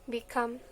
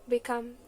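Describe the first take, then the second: Both takes have the same delivery.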